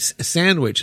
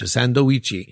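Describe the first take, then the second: First: It is said with a native English pronunciation. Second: It is said with a Japanese katakana pronunciation.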